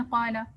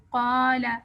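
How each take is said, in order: First: قالا with both alifs short and quick; rushed reading. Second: قالا with the first alif held two beats and a clear ق; long alif. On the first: Teacher showing the hurried wrong way. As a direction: clip the vowels in قالا. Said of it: "پڑھتے ہیں جلدی میں". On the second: Teacher showing the proper long alif. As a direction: stretch the آ in قالا. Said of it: "الف کو لمبا کریں". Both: Shown as a demonstration.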